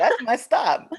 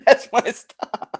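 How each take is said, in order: First: Laughing call. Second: Slow laughing repeat. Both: Pretend. Spotting Taco Bell while riding.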